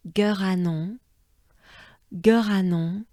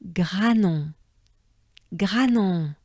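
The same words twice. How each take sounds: First: Granon with G separated, rising end; G then ranon, slightly apart; broken-up Granon; split Granon. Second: Granon smooth, G blended, falling end; smooth French Granon. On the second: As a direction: glide G into ranon. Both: Shown as a demonstration. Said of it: "we try to blend it in".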